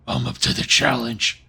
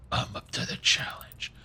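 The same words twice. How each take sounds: First: Lower, slow Batman voice. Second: Hushed, slow Batman whisper. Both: Acted. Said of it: "I say it like Batman".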